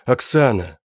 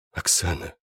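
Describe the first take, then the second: First: Громче, с отчаянием в голосе; зовёт её, пытаясь дозваться; отчаянный зов. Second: Тихо, почти шёпотом; тихо зовёт её по имени. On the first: Зовёт умирающую подругу. (отчаянно зовёт по имени) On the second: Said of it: "прошептал я". (тихий шёпот над раненой) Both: Acted.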